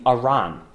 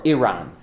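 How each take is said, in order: First: Iran said as "uh-RAHN"; alternative pronunciation. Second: Iran said as "ih-RAHN"; alternative pronunciation. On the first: Teacher giving the country's new name, Iran said "uh-RAHN". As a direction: open Iran with a neutral "uh", then "RAHN". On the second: Teacher offering the other way to say it, Iran said "ih-RAHN". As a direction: open Iran with a short "ih", then "RAHN". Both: Shown as a demonstration. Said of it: "or Iran".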